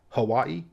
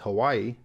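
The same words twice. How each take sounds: First: It is said staccato with a W sound. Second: It is said smoothly with a W sound. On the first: "a little more staccato" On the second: "The mainlander tourist way"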